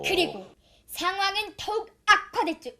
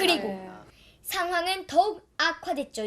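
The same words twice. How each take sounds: First: The throat is tight and the voice is forced. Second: The throat is loose and the voice is easy. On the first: The speaker calls it wrong. "이런 식으로 힘이 주고 하면 성대도 이제 아픈 거죠" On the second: The speaker calls it right. "이런 식으로 살짝 힘 풀어서"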